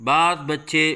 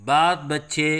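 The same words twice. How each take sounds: The two takes are said the same way.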